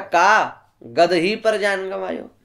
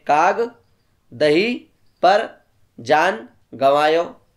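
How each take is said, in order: First: The break falls after 'ka'. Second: The break falls after 'kaag'.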